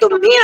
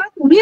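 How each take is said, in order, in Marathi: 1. हा रागाने म्हटला जातो, पहिला अक्षर जड आहे. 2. हा शांतपणे म्हटला जातो, पहिला अक्षर हलका आहे. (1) "असं जर आपण रागावून बोललो तर तो गागा होतो" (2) "तुम्ही म्हणता त्याला लगा होतं"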